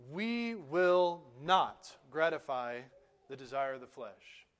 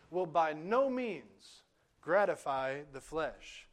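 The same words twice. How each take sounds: First: "we will not gratify" said slowly, hitting "not" hard; emphatic. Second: Slow "Will by no means gratify", weight on "no means"; emphatic negation. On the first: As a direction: stretch out "will not" as an unbreakable promise. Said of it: "Paul says very emphatically". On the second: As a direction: spell out the Greek emphasis deliberately. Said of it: "an emphatic negation where he says". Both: Retold or imitated.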